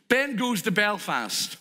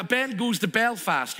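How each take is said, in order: First: "Ben goes to Belfast" said slowly, each word spaced; slow it right down so they remember; slow, deliberate repeat. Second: Said in the usual way. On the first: Shown as a demonstration. Preacher repeats the setup line slowly for the congregation.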